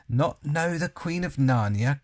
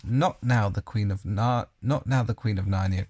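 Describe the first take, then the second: First: A louder, indignant queen's cry. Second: Queen crying out. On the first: The queen cries out at Edmund, indignant. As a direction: cry out in royal disbelief. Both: A narrator's reading. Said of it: "cried she".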